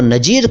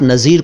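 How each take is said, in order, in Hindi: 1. बीच का व्यंजन j ध्वनि है। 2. बीच का व्यंजन z ध्वनि है।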